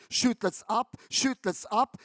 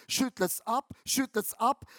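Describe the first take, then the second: No difference in how they are said.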